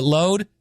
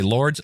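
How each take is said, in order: First: "Load" said as load, no r, with a long o; putting the right "Load" in place of lords; "Load" said clearly as load; corrected name. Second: "Lords" said with an r and z sound, as lords; reading "Lords" wrongly, as the word lords; "Lords" said as lords, the mistaken reading; mispronounced name. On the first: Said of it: "Lords is a cool name, too. But Load". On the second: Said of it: "Lo-, what'd I say?". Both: Shown as a demonstration.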